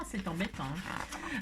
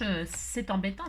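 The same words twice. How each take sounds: First: Murmuré, en retombant tout bas; répéter « c'est embêtant » tout doucement; en murmurant. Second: Said in the usual way. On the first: Shown as a demonstration. (« c'est embêtant » soufflé presque sans voix)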